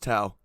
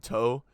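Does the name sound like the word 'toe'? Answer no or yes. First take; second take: no; yes. First: The name does not sound like 'toe'. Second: The name sounds like the word 'toe'. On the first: This is the preferred way to say the name. "it's Tao" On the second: Others say it this way from the spelling. "it's spelled like a tow truck"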